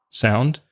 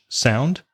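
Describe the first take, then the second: No difference in how they are said.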